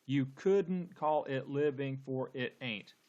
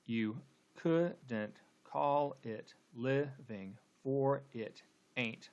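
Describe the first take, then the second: First: Slow, beat-by-beat verse reading; deliberate, measured line of verse; syllable-counting reading. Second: Very slow, syllables pulled apart, "You" unstressed and "ain't" stressed; drawn-out scansion with gaps between syllables; scanning the meter. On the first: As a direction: count out each syllable of "couldn't call it living". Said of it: "let's count the number of syllables". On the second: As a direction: break "couldn't call it living" into separate beats. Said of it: "let's go ahead and, and scan". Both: Shown as a demonstration.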